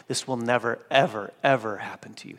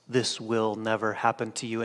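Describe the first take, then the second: First: "never, ever, ever" each word hit separately; stress on ever, ever. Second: Said in the usual way. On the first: Shown as a demonstration. Preacher showing the emphatic double negative of the original. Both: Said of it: "there's a double negative".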